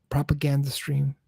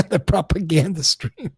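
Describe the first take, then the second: First: Said in the usual way. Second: Amused repeat with a laugh. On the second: Real, not acted. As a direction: laugh it out, mocking the phrase.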